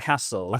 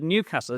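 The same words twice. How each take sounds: First: The stress is on the second syllable. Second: The stress is on the first syllable. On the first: The speaker calls it wrong. "It's not" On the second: The speaker calls it right. "the stress is on the first"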